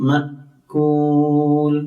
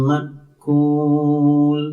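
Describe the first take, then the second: No difference in how they are said.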